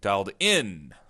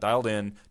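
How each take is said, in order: First: It is said with excited, exclaiming energy. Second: It is said flatly, without exclaiming energy. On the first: The speaker calls it right. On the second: The speaker calls it wrong.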